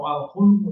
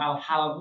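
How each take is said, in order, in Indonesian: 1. Vokal setelah h adalah u. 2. Vokal setelah h adalah a. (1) "atau al-hulmu" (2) "Jangan dibaca al-halmu"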